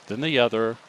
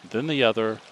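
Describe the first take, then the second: No difference in how they are said.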